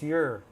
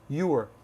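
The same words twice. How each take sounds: First: The word is reduced and said quickly. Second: The word is said fully and carefully. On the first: The speaker calls it right. "We say what's your" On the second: The speaker calls it wrong. "we don't say your, your. It's too much work"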